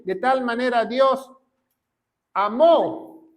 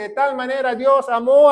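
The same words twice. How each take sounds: First: Pause, then "amó" set apart with its final O stressed. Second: Said in the usual way. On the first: Shown as a demonstration. Preacher rereading the verse to prove past tense, stress on "amó". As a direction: land on the last syllable of "amó" after a held pause. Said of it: "con acento en la O".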